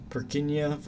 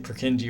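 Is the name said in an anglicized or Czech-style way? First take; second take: Czech-style; anglicized. First: It is said with a Czech-style pronunciation. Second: It is said with an English-style pronunciation. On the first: This is how the original name sounds. "the original pronunciation is more like Purkinje" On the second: This is how most people say it. "most people say Purkinje"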